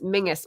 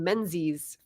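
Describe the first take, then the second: First: The middle is said with an 'ng' sound. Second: The middle is said with an 'nz' sound. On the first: This is the traditional upper-class pronunciation. "pronounced by like the upper crust Toff society or whatever, the family maybe, as Mingus" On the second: This is the everyday spelling-based pronunciation. "I grew up saying Menzies"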